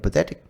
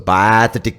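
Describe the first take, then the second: First: The word is said in a neutral accent. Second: The word is said in an Indian accent. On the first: The plight was simply pitiful. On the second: It adds extra contempt and flavor.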